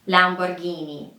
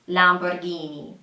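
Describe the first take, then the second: The two takes are said the same way.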